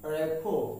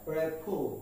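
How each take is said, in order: No difference in how they are said.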